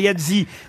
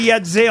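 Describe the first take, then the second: First: The name is pronounced the American way. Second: The name is pronounced the French way. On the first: This is how it is said in the United States. "on dit effectivement Yadzi aux États-Unis" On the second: This is how it is said in France. "on dit Yadze en France"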